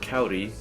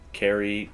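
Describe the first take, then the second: First: The r is a quick tap like d. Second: The r is not a quick tap. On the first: "with a an R like a soft D in Spanish" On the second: "if you'd like to pronounce it some other way"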